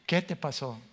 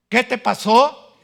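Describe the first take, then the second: First: Said in the usual way. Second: "¿Qué te pasó?" much higher and louder, slow, rising on "¿Qué"; shocked question. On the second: Acted. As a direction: gasp it out in shock. Wife shocked by his change.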